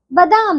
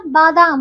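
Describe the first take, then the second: First: बादाम said ba-daam; short first vowel. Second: बादाम said baa-daam; long first vowel. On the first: Teacher showing wrong बादाम, short ba. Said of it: "बादाम नहीं होता". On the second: Teacher correcting pupils, बादाम with long baa. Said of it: "बादाम होता है". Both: Shown as a demonstration.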